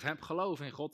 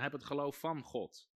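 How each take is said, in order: First: Said in the usual way. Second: Nadruk op van; van benadrukt, dalend; stress on van. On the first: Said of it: "De H S V zegt". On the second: Shown as a demonstration. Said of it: "In de grondtekst staat er". ("van" met klem)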